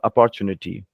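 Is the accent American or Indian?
Indian. It is said with an Indian English accent. "we largely in India would say"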